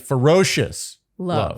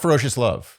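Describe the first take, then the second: First: Ferocious is said with strong emphasis. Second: Ferocious runs flatly into love without emphasis. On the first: The speaker calls it right. "It's got to be ferocious love" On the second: The speaker calls it wrong. "not ferocious love. It can't become a phrase"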